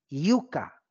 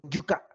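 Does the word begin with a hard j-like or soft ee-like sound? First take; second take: soft ee-like; hard j-like. First: It begins with a soft, ee-like glide. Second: It begins with a hard, j-like consonant. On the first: "porque la Y es una I" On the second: "Que nosotros decimos yuca"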